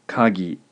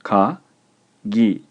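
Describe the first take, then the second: First: Said in the usual way. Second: Ka and gi said apart, with a pause; clear, emphatic dictation in separate syllables. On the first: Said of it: "and is pronounced". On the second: Shown as a demonstration. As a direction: dictate ka, then gi, each on its own. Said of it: "The word is two syllables".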